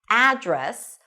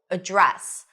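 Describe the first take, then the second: First: The stress is on the first syllable. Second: The stress is on the second syllable. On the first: "with the stress on the first syllable and an a as in cat sound" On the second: "put the stress on the second syllable"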